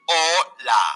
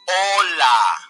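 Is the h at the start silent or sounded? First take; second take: silent; silent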